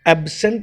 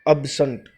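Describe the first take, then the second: First: The first vowel sounds like 'e' in bed. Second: The first vowel is a short 'uh' sound. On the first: The speaker calls it wrong. "एब्सेंट नहीं होता" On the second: The speaker calls it right. "It is अब्सेंट। अब्सेंट, अ ब स अ"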